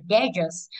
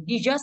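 First: Dangerous said "DE-zơt", full first vowel; first-syllable stress reading. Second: Jesus said "di-ZƠT", weak first syllable; second-syllable stress reading. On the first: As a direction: say dangerous as DE-zơt, weight up front. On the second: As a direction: say Jesus as di-ZƠT, weight on the end. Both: Shown as a demonstration. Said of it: "nó có hai cái đọc".

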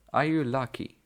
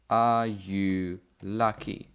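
First: Said in the usual way. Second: Slow, deliberate model question for learners. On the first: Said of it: "teacher repeats the question". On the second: Shown as a demonstration. Teacher modelling for Polish learners, slow and clear. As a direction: lay out each word slowly so students can follow. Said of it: "teacher models the question".

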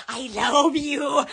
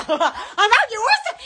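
First: Drawn-out low tone; low, lingering declaration; slow, low affection. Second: Quick, laughing shout; affectionate holler with a laugh; excited affection. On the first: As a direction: stretch it out slowly, pitched down. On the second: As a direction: call it out giddily. Calls out affection to viewers. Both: Real, not acted.

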